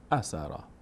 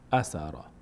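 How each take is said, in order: No difference in how they are said.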